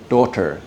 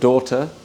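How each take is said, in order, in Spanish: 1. Una t clara en el medio, r al final. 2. La consonante del medio es una r suave, parecida a un flap. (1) "con t, pero con r al final" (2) "este r al, en el medio, que no es t"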